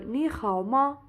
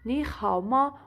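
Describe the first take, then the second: The two takes are said the same way.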